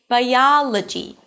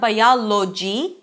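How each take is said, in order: First: The o in the ending is reduced. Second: The o in the ending is a full vowel. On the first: The speaker calls it right. "It's biology" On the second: The speaker calls it wrong. "Although there is an O here, it's not biology"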